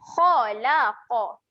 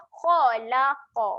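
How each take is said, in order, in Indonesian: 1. Bunyi kha dan qaf itu berat dan tebal. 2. Bunyi kha dan qaf itu berat dan tebal.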